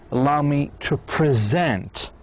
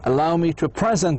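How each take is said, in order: First: The stress is on the second syllable of present. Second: The stress is on the first syllable of present. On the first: It is the verb meaning to introduce. The speaker calls it right. "you need to say allow me to present as a verb" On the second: It sounds like the noun meaning gift or now. The speaker calls it wrong. "they may get shocked. What he's saying, it's illogical, because he said present"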